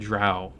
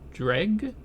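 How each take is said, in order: First: The word ends with an open vowel sound. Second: The word ends with a hard g sound. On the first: "I've always pronounced it drow" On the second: "Dreg wax? Really?"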